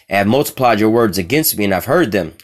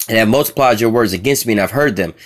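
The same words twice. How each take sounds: No difference in how they are said.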